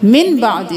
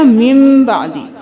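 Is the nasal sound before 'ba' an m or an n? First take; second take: n; m. First: The first word ends in a plain n sound. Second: The first word ends in a held, nasal m sound. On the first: The speaker calls it wrong. "मिन बादी नहीं करना" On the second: The speaker calls it right. "मीम के साथ नून को नहीं पढ़ेंगे बल्कि मीम को पढ़ेंगे"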